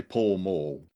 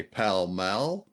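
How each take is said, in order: First: "Pall Mall" said as pawl-mawl; own pronunciation. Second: "Pall Mall" said as pal-mal; short a in both words of "Pall Mall"; London pronunciation. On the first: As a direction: open aw vowel in both words of "Pall Mall". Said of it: "and I'd say". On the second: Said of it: "Londoners would say". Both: Shown as a demonstration.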